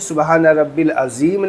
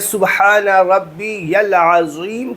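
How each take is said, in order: First: Rabbi runs straight into 'l' without 'ya'. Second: Rabbi is followed by a clear 'ya' sound. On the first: The speaker calls it wrong. "नहीं" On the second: The speaker calls it right. "बल्कि ... कहना है"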